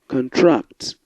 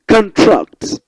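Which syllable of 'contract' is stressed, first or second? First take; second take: second; first. First: The stress is on the second syllable. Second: The stress is on the first syllable. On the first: The word is a verb. "when you stress the second syllable, it appears as a verb" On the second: The word is a noun. "when you pronounce the first syllable, it's a, the word appears as a noun"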